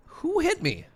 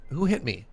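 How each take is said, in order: First: Who hit me squeaked much higher; squeaky indignant question. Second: Said in the usual way. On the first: Real, not acted.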